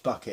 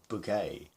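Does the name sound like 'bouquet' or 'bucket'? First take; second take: bucket; bouquet. First: The name is said like the word bucket. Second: The name is said like the word bouquet. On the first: This is the name's ordinary form. The speaker calls it right. "It's Bucket" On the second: The speaker is trying to sound more important. The speaker calls it wrong. "they would change the pronunciation"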